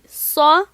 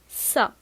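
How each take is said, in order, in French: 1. Le son est lourd et emphatique. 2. Le son est léger et simple. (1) "on dit sa" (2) "et non pas"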